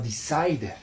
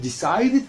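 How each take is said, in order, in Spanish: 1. La sílaba final se pronuncia suave y débil. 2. La sílaba final se pronuncia fuerte y completa. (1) "sino decided" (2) "No decimos decided"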